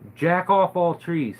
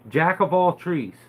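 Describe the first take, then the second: First: The second word is said as 'off'. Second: The second word is said as 'of'. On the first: The speaker calls it wrong. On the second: The speaker calls it right.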